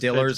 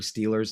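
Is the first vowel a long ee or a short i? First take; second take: short i; long ee. First: The first vowel is a short i sound. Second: The first vowel is a long ee sound. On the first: "that's how they say it" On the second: "it's not the Pittsburgh Steelers"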